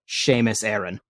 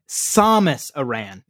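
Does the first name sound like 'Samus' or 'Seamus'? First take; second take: Seamus; Samus. First: The first name is said like Seamus. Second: The first name is said the usual way, Samus.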